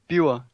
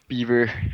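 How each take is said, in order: First: The name is said with a Danish pronunciation. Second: The name is said with an English pronunciation. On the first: "in Danish, it would be Biver" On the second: "every variation of it pretty much in English"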